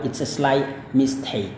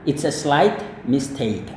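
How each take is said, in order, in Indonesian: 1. T di akhir kata slight dihilangkan. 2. T di akhir kata slight diucapkan. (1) "tetapi bisa juga tidak dikatakan" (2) "T-nya di sini boleh dilafalkan"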